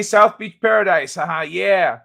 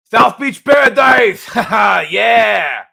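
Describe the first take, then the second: First: Said in the usual way. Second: Loud, high, drawn-out lisping shout; Mike Tyson Lobo. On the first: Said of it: "So I was doing Lobo". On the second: Acted. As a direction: belt it out as a cartoon bruiser with a lisp. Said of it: "Mike Tyson Lobo".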